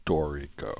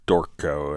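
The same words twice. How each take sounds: First: "Dorico" in three syllables, DOR-i-co; full pronunciation. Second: "Dorco" in two syllables, no middle vowel; misheard Dorico. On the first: Shown as a demonstration. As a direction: sound the middle i in "Dorico". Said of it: "every time Greg says Dorico". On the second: Retold or imitated. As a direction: say "Dorco" as DOR-co, dropping the i. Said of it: "I can't help but hear Dorco".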